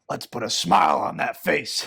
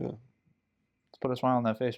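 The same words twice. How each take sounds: First: It is said in a put-on character voice. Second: It is said in the speaker's ordinary voice. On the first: "That was actually really good" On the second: "You're not gonna do the voice"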